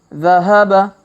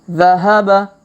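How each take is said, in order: The two takes are said the same way.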